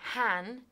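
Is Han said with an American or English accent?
English. It is said the English way, rhyming with man.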